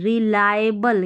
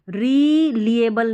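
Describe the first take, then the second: First: The second syllable sounds like 'lie'. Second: The second syllable sounds like 'lee'. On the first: The speaker calls it right. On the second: The speaker calls it wrong.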